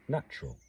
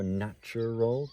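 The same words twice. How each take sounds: First: The word is squeezed into two syllables. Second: The word is spelled out in three syllables. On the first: The line keeps ten syllables. "It's a perfectly normal ex uh, pronunciation of the word" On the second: The capitalized word gets more importance. "It might be nice to sort of spell it out"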